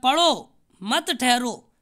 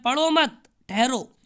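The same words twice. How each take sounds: First: The pause comes after 'padho'. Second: The pause comes after 'mat'.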